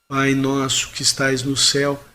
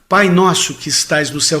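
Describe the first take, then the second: First: It is said weakly, without energy or will. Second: It is said with force and determination.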